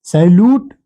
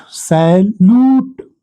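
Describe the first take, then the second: First: सैल्यूट with a shorter "oo"; short vowel. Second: सैल्यूट with a long drawn-out "oo"; long vowel. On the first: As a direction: say सैल्यूट without stretching the last vowel. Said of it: "छोटी यू का मात्रा है". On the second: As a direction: stretch the second syllable of सैल्यूट, very slowly. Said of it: "बड़ी यू का मात्रा है". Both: Shown as a demonstration.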